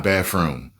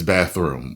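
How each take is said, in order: First: "bathroom" said as "baf-room", f replacing th; wrong pronunciation. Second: Said in the usual way. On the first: Shown as a demonstration. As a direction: swap the th in "bathroom" for an f. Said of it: "it's not bathroom". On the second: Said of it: "It's bathroom".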